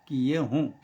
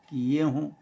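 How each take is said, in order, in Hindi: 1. अंतिम स्वर अनुनासिक है। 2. अंतिम स्वर अनुनासिक है।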